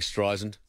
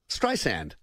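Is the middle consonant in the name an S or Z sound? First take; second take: Z; S. First: The middle consonant is a voiced Z sound. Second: The middle consonant is a hard S sound. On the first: The speaker calls it wrong. "you're saying it with a Z" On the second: The speaker calls it right. "Hard S"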